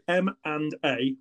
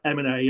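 First: The letters are said slowly and separately. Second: The letters run together quickly like one word. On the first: "I'll try and say it slowly again" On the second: "most people say it will just sound like M&A and sounds like one word"

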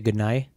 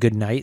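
First: The final T is dropped. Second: The final T is clearly pronounced. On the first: "they would say good night?" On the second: "instead of saying good night"

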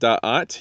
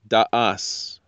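First: The word ends with a t sound. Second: The word ends with an s sound. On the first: "instead of saying Da'at" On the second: "you can also say Da'as"

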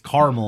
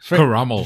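First: The word is shortened to two syllables. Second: The word is said with three full syllables. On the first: The speaker calls it wrong. "so you're just going to cut letters out" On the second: The speaker calls it right. "First of all"

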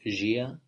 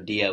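First: The word begins with a J sound. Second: The word begins with a D sound. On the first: "They pronounce it J" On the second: "they don't have a D"

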